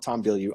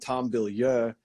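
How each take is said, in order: First: The surname is pronounced the English way. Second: The surname is pronounced the French way. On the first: It is how the bearer says his own name. "he calls himself" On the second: It follows the name's French origin. "that's probably the right pronunciation though, because it's a French name"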